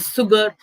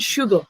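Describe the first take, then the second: First: The word begins with an s sound. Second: The word begins with an sh sound. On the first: The speaker calls it wrong. "we don't say sugar" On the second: The speaker calls it right. "It's salt and sugar"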